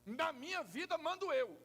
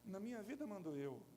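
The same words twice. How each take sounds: First: It is said angrily and forcefully. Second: It is said calmly, without anger.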